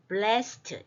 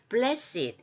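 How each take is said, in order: First: The word is said as one syllable. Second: The word is said as two syllables. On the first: It is the plain past participle form. "원래는 blessed, blessed 이렇게 발음하는데" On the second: It is used as an adjective meaning holy or favored. "blessed 이렇게 형용사화 되었어요"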